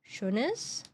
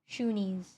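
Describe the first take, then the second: First: The name is pronounced in a German way. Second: The name is pronounced in an English way.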